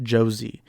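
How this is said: The name is said with an American English accent. "you'll have some Americans pronounce it"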